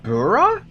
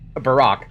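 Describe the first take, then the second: First: The name ends without a k sound. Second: The name ends with a k sound. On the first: "That's how you pronounce it?" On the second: "This entire time I thought it was pronounced Barack"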